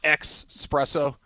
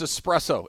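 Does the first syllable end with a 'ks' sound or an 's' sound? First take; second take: ks sound; s sound. First: The first syllable has a 'ks' sound. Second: The first syllable has a plain 's' sound. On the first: The speaker calls it wrong. "there's no X in the word espresso. It's not espresso" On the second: The speaker calls it right. "It's all S's"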